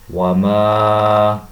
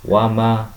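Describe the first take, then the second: First: The vowel after the m is held long. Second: The vowel after the m is cut short. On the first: The speaker calls it right. "maka dibaca dengan panjang dua harakat" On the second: The speaker calls it wrong. "tidak boleh kita membaca"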